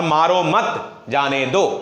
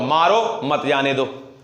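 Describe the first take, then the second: First: Slow मारो मत together, a break, then जाने दो rising; pause after मत. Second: मारो set apart on a rise, then मत जाने दो run together lower; pause after मारो. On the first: Teacher contrasts the meanings for students, pause after मत. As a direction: join "मारो मत", then set "जाने दो" apart. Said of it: "कितना बड़ा अंतर आ जाता है". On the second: Teacher shows students the comma's effect, pause after मारो. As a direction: break after "मारो", keep "मत जाने दो" as one phrase. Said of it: "मारो के बाद कॉमा दीजिए". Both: Shown as a demonstration.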